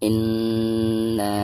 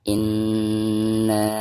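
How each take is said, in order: First: The final vowel is held for four counts. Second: The final vowel is held for five counts. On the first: "Contoh yang empat harokat" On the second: "Contoh yang lima harokat"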